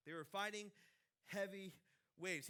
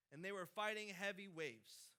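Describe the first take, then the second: First: They were fighting, pause, heavy, pause, waves, each word set apart; slow emphatic pauses. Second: Said in the usual way. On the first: Shown as a demonstration. Pastor dwelling on the disciples' struggle, words spaced apart. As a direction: let each word land on its own with a gap before heavy and before waves. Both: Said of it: "repeats it word by word".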